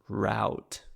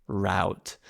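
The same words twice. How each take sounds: First: It is said in an American accent. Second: The same.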